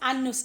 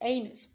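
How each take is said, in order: First: The first vowel is not an 'ay' sound. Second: The first vowel is a long 'ay' sound. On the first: The speaker calls it wrong. "that word is not anus" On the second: The speaker calls it right. "You pronounce it as anus"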